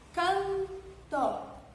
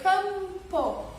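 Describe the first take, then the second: First: It is said without closing the lips. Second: It is said with the lips closing. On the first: The speaker calls it wrong. "pronunciar sem tocar os meus lábios? Vamos tentar?" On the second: The speaker calls it right. "Para mim fazer o som do P, campo, eu tenho que tocar"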